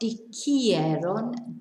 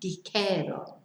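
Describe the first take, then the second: First: The ending has an extra i sound, 'ieron'. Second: The ending has no i sound, just 'eron'. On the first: The speaker calls it wrong. "Not dijeron" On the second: The speaker calls it right. "we lose the I"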